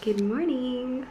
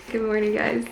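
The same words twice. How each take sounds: First: Slow, high cooing good morning. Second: Said in the usual way. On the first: Real, not acted. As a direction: croon it to the kitten. Greeting kitten.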